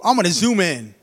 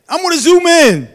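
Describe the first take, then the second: First: Said in the usual way. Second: Preacher's rising shout; sudden loud high repeat. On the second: Acted.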